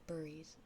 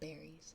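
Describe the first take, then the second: First: It sounds just like the word 'buries'. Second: Its vowel is distinct from the vowel in 'buries'. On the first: This is the speaker's own Canadian or Midwestern way. "I say burries" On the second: This is the way others expect it to be said. "instead of berries"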